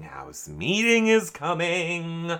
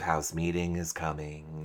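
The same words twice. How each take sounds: First: Slow, higher, stretched-out chant; stretched, lilting mock warning; drawn-out omen. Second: Said in the usual way. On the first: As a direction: draw out "House meeting is coming" like a looming omen. Repeats phrase as mock omen.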